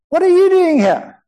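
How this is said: The question is asked in a surprised tone.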